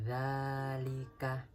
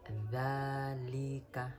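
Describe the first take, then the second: Both takes have the same delivery.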